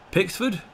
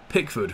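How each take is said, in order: First: Pickford? raised high, asking; Pickford? with a rising, baffled question; puzzled question. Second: Said in the usual way. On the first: Real, not acted.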